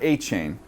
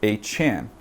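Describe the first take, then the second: First: The last syllable rhymes with 'rain'. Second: The last syllable has a short 'a' vowel. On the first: This is how the name used to be said. The speaker calls it wrong. "He's no longer A Chain" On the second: This is how the player now wants his name said. The speaker calls it right. "It is now a Chan"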